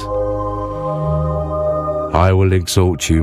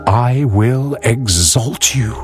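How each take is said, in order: First: It is read plainly, without feeling. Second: It is read with strong feeling. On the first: The words carry no meaning for the reader. The speaker calls it wrong. "You can simply just say it" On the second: The reader shares the writer's experience. The speaker calls it right. "you see what David was experiencing, you can just say"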